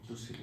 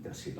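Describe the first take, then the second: First: The first vowel is an 'u' sound. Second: The first vowel is an 'a' sound. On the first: The speaker calls it wrong. "तुसिलु नहीं" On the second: The speaker calls it right.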